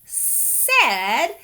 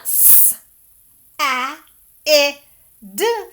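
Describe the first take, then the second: First: "said" as one word with an "eh" vowel, rhyming with red; "said" stretched out with a short e sound; blended whole word. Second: "s, a, I, d" as four separate letter sounds, loud short vowels; teacher's phonics demo, each of "s, a, I, d" said alone and punched; sounded out letter by letter. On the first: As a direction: say "said" slowly as one drawn-out word. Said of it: "This word is said". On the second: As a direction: sound out "s, a, I, d" with clear gaps. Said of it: "So this word is not". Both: Shown as a demonstration.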